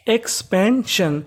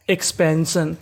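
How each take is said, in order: First: "एक्सपेंशन" split slowly as एक्स-पेन-शन; syllable by syllable. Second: Said in the usual way. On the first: Shown as a demonstration. Teacher reading out एक्सपेंशन for students, slowly syllable by syllable. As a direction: pull "एक्सपेंशन" apart into its syllables. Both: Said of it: "तो meaning बनी".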